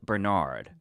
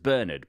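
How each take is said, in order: First: The name is said in the American way. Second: The name is said in a non-American way. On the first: This is how it is usually said in the US. "in the U S it's more commonly pronounced as Bernard" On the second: This is how the owner says his own name. "My name is Bernard"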